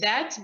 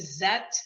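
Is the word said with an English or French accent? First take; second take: English; French. First: The first sound is a soft th. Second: The first sound is a z, French-like.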